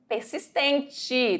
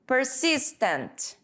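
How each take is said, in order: First: Persistente said slowly with Portuguese sounds; slow Portuguese word. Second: Persistent drawn out slowly with English sounds; slow English word. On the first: Teacher giving the Portuguese Persistente slowly after the English word. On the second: Teacher modelling the English Persistent slowly, set against the Portuguese. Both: Shown as a demonstration. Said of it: "repitam comigo".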